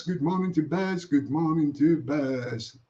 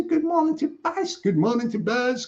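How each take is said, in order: First: Dropped low and slowed right down. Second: Pitched way up, bright call-out; greeting sung out high; high sing-song greeting. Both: Acted. Greeting repeated, high then low.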